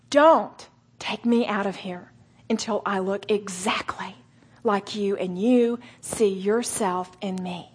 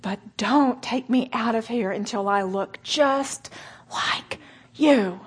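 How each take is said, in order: First: Slow, voiced and sincere; earnest prayer. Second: Whispered prayer with a sob; tearful whisper. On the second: Retold or imitated. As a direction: breathe it out through tears. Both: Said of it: "gritted teeth and many tears".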